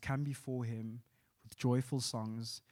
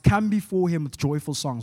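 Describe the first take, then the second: First: It is read in a plain, flat way. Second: It is read with passion and excitement.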